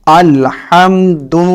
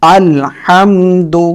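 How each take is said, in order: No difference in how they are said.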